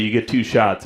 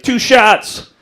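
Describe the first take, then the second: First: Said in the usual way. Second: High, projected mock ref call; referee's call. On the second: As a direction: announce the penalty sharply. Referee calls the penalty.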